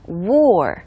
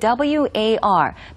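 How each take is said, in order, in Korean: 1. 모음이 'wore'처럼 들려요. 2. 모음이 'wore'처럼 들리지 않아요. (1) "W-O-R-E처럼 발음하시면 돼요" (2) "war가 아니라요"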